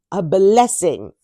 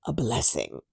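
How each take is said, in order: First: A blessing drawn out slowly, louder; slow, savoured repeat. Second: Said in the usual way. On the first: Shown as a demonstration. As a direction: stretch out blessing with relish. Slowed repeat.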